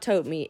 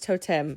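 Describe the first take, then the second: First: The name ends with a long 'mee' sound. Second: The name ends with a short 'tem' sound. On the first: The speaker calls it wrong. "It's not Tote Me" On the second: The speaker calls it right. "it's Totem"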